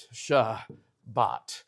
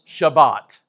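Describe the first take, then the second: First: Shabbat split slowly into "Sha... bat"; syllable by syllable. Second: Said in the usual way. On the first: Shown as a demonstration. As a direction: pause between the two syllables of Shabbat. Teacher sounds out the Hebrew word.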